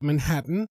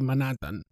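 First: The middle h sound is clearly aspirated. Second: The middle h sound is left out. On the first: "the aspiration of the H" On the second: "Italian speakers usually tend to drop it, and they say Manhattan"

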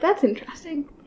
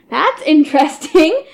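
First: It is said fairly quietly. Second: It is said much louder.

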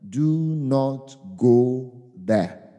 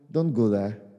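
First: It sounds like a firm command. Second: It sounds like a gentle suggestion.

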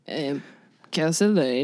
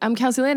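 First: It is said slowly. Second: It is said fast.

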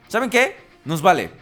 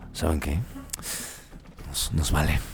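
First: It is said in the speaker's normal voice. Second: It is said in a Hasbro executive voice.

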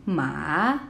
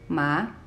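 First: The pitch dips down and then rises. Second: The pitch starts lower and rises. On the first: "goes down, and then goes up" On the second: "starts a little bit lower than the first tone and goes up, rising"

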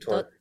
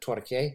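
First: The word is pronounced the plain English way. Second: The word is pronounced like a Spanish word. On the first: The speaker calls it right. "but it's actually torque" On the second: The speaker calls it wrong. "like it's a Spanish word"

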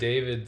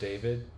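First: The name ends with a D sound. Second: The name ends with a T sound.

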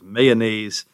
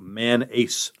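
First: Every syllable of the word is pronounced. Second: The word is cut down, dropping a syllable. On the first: The speaker calls it right. "You got to pronounce all the syllables" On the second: The speaker calls it wrong. "you're basically cutting it down to"

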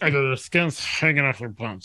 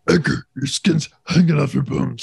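First: It is said in Edgar's wife's voice. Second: It is said in Edgar's voice.

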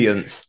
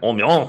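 First: It is said plainly, without flair. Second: It is said with a showy French-style flair.

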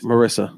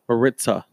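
First: The middle consonant is a plain 's' sound. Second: The middle consonant is a 'ts' sound. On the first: The speaker calls it right. "Marissa. So don't say Maritza" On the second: The speaker calls it wrong. "You keep saying Maritza with Maritza. A T"

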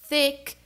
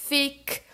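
Both takes have the same delivery.

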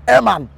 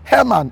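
First: The name starts without any H sound. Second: The name starts with an H sound.

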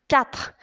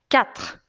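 Both takes have the same delivery.

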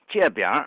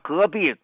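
First: The first syllable starts with a 'j' sound. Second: The first syllable starts with a 'g' sound.

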